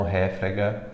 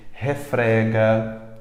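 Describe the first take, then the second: First: Réfrega mispronounced with stress on RÉ; stress on first syllable. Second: Refrega with stress on FRE; stress on middle syllable. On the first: Teacher rejecting the wrong form, stress on RÉ in réfrega. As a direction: say RÉ-fre-ga, first syllable strongest. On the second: Teacher modelling the right form, stress on FRE in refrega. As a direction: say re-FRE-ga, FRE strongest. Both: Shown as a demonstration. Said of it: "e não réfrega".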